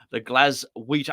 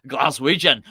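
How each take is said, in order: First: Said in the usual way. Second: Scottish accent. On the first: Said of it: "I can't say it in an English accent". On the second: Shown as a demonstration. Host showing he can say Glaswegian, in a Scottish accent. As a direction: put on a Scottish accent, louder. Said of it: "I can say it in a Scottish accent".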